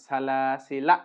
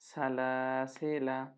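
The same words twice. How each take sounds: First: The word ends on a stopped consonant. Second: The word ends on a short vowel. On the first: The speaker calls it wrong. "এই আলিফ জায়দাই সুকুন করে ফেলছিলাম, যেটা আমার ভুল ছিল" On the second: The speaker calls it right. "টানও হবে না"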